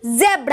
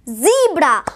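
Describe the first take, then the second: First: It is said the British way, starting 'zeh'. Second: It is said the American way, starting 'zee'.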